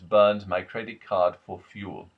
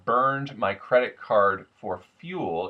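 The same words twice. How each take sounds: First: The vowels before R become an open ah. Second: The vowels before R keep a clear R color. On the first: "vowel plus R tends to turn to vowel plus a much more open ah sound" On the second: "instead of"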